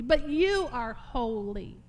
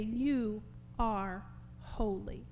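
First: "but you are holy" loud, with YOU stressed and stretched; slow, loud insistence on "but you are holy"; emphatic declaration. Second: "You are holy" drawn out slowly; measured, reverent "You are holy"; slow reverence. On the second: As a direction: let each word of "You are holy" stand apart, unforced. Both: Acted. Repeats the verse with differing force.

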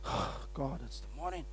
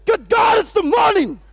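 First: Whispered, much softer, dragging and dreary; groggy morning groan. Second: Shouted, much higher and louder, bursting with energy; excited morning shout. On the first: Pastor showing the wrong way to greet the morning, whispered groan. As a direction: sound like you hate waking up. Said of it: "you won't say". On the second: Pastor showing the right way to greet the morning, joyful shout. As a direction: greet the day like a victory. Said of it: "You say". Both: Shown as a demonstration.

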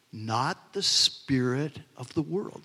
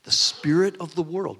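First: "not the spirit of the world" drawn out slowly, each word weighed; slow emphatic phrase. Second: "The spirit of the world" louder, hammered out; punched repeat. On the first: Preacher reading scripture to his congregation, slow stress. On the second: Preacher driving the phrase home to listeners, louder stress. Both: Shown as a demonstration. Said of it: "See, there it is again".

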